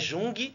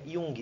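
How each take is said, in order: First: The name begins with a J sound. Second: The name begins with a Y sound. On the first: The speaker calls it wrong. "Não é Jung" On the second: The speaker calls it right. "mas a pronúncia é I"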